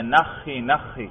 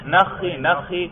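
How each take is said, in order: First: Slow, drawn-out, softer call to a camel; camel kneeling call. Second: Quick call "نخی نخی" at normal pace; camel kneeling call. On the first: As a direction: stretch "نخی نخی" out gently as if making a camel kneel. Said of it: "آواز دیتے ہیں". (اونٹ کو بٹھانے کی دھیمی، کھنچی ہوئی آواز) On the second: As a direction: say "نخی نخی" briskly, like a herder's command. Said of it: "اونٹ کو بٹھانا ہو تو کیا کہتے ہیں". (اونٹ کو بٹھانے کی تیز پکار) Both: Shown as a demonstration.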